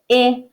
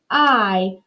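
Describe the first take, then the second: First: The vowel has its short, clipped sound. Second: The vowel sounds like its letter name. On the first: "My I makes the I" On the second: "My long I says I"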